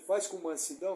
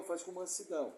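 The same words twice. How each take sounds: First: "faz" lifted, rising at the end; stress on faz. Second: "faz" stressed, falling and softer; falling repeat. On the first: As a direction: hit "faz" and let "mansidão" rise. (ênfase em "faz", subindo no fim) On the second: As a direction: let "faz com mansidão" drop softly. ("faz com mansidão" caindo, mais suave) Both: Shown as a demonstration.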